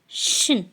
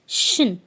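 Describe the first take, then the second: The two takes are said the same way.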